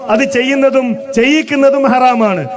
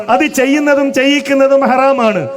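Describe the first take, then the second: No difference in how they are said.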